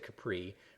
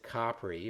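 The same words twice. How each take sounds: First: It is said with an English pronunciation. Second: It is said with an Italian pronunciation. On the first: This is how a non-Italian speaker says it. "I'm not Italian" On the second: This is how the locals say it. "Italians pronounce it Capri"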